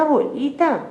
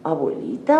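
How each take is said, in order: First: Abuelita called again much higher; higher girlish call. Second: Said in the usual way. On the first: A narrator's reading. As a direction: lift abuelita up high like a little girl. (abuelita, más agudo, voz de niña) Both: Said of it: "Caperucita dice".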